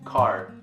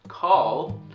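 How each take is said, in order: First: The word ends with an R-like sound. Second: The word ends with a clear L sound. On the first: The speaker calls it wrong. "A lot of Korean people would pronounce it as card" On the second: The speaker calls it right. "pronounce this word correctly. Call"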